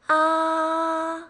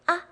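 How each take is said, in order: First: The pitch stays high and level. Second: The syllable is short, light and unstressed. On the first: "same level, it's a little high pitched" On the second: "It's quick and easy. There's no stress"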